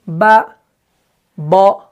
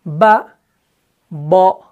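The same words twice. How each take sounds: Both takes have the same delivery.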